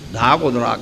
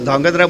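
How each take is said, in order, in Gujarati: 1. વધારાના સ્વરો વ્યંજન ગુચ્છને તોડે છે. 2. વ્યંજન ગુચ્છ એકસાથે રહે છે. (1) "ધાગોદરા કરીને બોલે" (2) "ધાંગધ્રા બોલી જ ન શકે"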